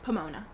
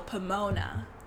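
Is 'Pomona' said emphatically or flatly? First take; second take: flatly; emphatically. First: The name is said flatly without clear emphasis. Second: The name is said with knowing, marked emphasis. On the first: The speaker calls it wrong. "My tone was not clear" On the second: The speaker calls it right. "I was trying to be like, well, Pomona"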